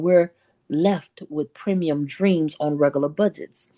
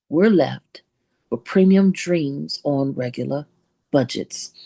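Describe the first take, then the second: First: The phrase is said at a normal pace. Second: The phrase is said slowly and deliberately.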